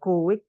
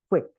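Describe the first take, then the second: First: The vowels are split into two syllables. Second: The vowels merge into one quick syllable. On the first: The speaker calls it wrong. "bukan quick" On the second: The speaker calls it right. "Dibacanya cepat, ... U sama I-nya itu dianggap satu suara"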